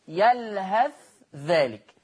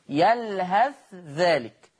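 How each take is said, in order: First: The th sound is pronounced clearly and separately. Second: The same.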